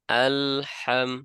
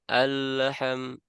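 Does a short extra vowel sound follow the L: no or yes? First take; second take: no; yes. First: The L is silent-held, with no vowel echo. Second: The L is voiced, releasing a short vowel echo. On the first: The speaker calls it right. "maka tidak akan ada pantulan" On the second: The speaker calls it wrong. "Kalau lamnya masih bunyi suaranya, nah maka kalau kita lepaskan akan berbunyi e"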